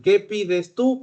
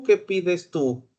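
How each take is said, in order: First: "tú" lifted with a rising end; asking "¿Qué pides tú?" with the weight on "tú"; stress on tú. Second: "qué" hit first, then a falling end, a bit slower; slower, weight on "qué"; stress on qué. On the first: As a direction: land on "tú", rising. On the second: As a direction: ask "¿Qué pides tú?" leaning on "qué". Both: Shown as a demonstration.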